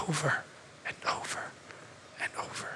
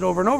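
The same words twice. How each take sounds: First: Fading to a whisper. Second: Said in the usual way. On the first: Acted. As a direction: drop from soft to a bare whisper. Preacher fades to dramatic whisper.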